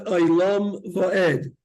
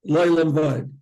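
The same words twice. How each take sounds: First: Slow "Le'olam Va'ed", every syllable distinct; careful separated syllables. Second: "Le'olam Va'ed" squashed into LOY-lum VOYD; slurred wrong version. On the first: Teacher modelling the prayer ending, "Le'olam Va'ed" slow and fully articulated. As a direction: separate le-oy-LAM va-ED, stressing the endings. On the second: Teacher showing the error to avoid, "Le'olam Va'ed" slurred. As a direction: run "Le'olam Va'ed" together, losing syllables. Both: Shown as a demonstration. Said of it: "not Le'olam Va'ed".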